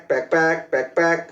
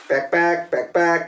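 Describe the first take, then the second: No difference in how they are said.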